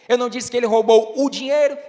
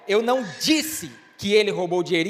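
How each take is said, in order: First: The word dinheiro is stressed. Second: The word disse is stressed. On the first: He took something other than the money. "então o que foi que ele roubou?" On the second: Something else was said about it. "então o que foi que você disse?"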